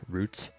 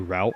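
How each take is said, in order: First: The word is said like plant root. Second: The word is not said like plant root. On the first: "you usually say roots if you want to say say like a uh, like a plant root" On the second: "I always say route because I thought it sounded cooler"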